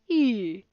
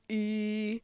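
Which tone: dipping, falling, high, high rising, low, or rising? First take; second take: falling; low. First: The pitch goes down. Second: The pitch stays level and low. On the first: "A falling tone is like e" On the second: "a low tone is like e"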